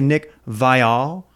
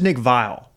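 First: The name is pronounced in a fancy way. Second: The name is pronounced in a plain way. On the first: "I don't remember it being so fancy back in the day" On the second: "I thought it was just Nick Vial"

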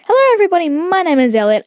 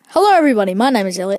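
First: It is said in a lively, energetic, enthusiastic voice. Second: It is said in a calm, ordinary speaking voice. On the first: This is how he talks when recording videos. "when I record it, it's like" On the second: This is how he normally talks. "that's my normal voice"

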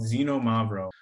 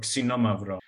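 First: The word is said with English-style pronunciation. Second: The word is said with Greek-style pronunciation.

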